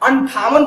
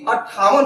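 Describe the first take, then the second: First: The first syllable has a nasal n sound. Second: The first syllable has a doubled t sound. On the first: The speaker calls it wrong. "लोग बोलने में गलती कर देते हैं, अंठावन बोलते हैं" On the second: The speaker calls it right. "जो कि अट्ठावन होता है"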